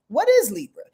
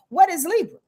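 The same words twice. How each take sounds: First: Said in the usual way. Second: Higher, quizzing the audience; quiz question. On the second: Shown as a demonstration. Teacher quizzing viewers on signs, higher. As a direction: tease it like a quiz master. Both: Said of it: "I might quiz you along here".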